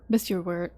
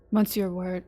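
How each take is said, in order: First: Monsieur said as "miss-yer"; second try at Monsieur, as "miss-yer"; corrected French title. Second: Monsieur said as "mon-sur"; mispronounced French title. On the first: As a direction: drop the N from Monsieur. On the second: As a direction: sound out the N in Monsieur. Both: Real, not acted. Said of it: "hard words to say together".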